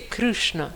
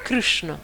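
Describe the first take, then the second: Both takes have the same delivery.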